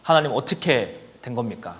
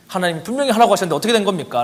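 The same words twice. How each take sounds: First: Said in the usual way. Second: Desperate prayer. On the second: Retold or imitated. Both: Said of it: "라고 막 기도를 했더니".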